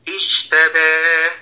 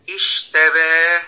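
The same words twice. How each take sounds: The two takes are said the same way.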